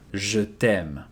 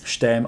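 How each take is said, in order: First: The vowel in je is fully pronounced. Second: The vowel in je is dropped. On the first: It shows true, deep feelings. "then you will not devocalize e here" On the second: It is said casually and often. "Unless it's something that you say quite often"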